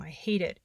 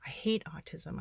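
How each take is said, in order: First: Said in the usual way. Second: Whispered. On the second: Real, not acted. Reading own despairing journal entry.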